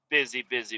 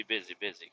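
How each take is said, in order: First: Said in the usual way. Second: "busy, busy" trailing off much softer and lower; dying-away echo; fading murmur. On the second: Shown as a demonstration. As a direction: let "busy, busy" fade almost to nothing.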